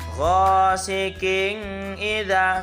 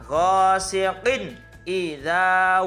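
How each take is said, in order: First: The n is blurred into the next word. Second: The n is pronounced fully and distinctly. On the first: The speaker calls it wrong. "Nggak boleh dibaca ghasiqin idza, salah" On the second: The speaker calls it right. "harus jelas, bacaan idhar"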